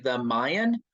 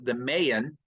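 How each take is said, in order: First: The name gets its present-day pronunciation. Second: The name gets its old-fashioned pronunciation. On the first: This is how people say it now. "for most folks today" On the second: This is how people said it long ago. "as they pronounced it long, long ago"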